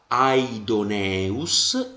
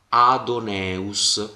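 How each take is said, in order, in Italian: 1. Dopo la prima 'a' si pronuncia una vocale 'i'. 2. Dopo la prima 'a' non si pronuncia nessuna vocale 'i'. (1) "io leggerò aidoneus" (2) "non leggerò adoneus"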